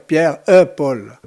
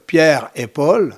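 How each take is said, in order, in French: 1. C'est dit avec un accent patois plus grave et plus sombre. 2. C'est dit avec une prononciation de français standard. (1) "En patois, on va dire" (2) "En français, on dit"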